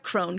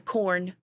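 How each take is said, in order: First: The name sounds like 'crone', with a long o. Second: The name sounds like 'corn', with an or sound. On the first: The speaker calls it wrong. "not Crone" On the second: The speaker calls it right. "Isn't it Corn?"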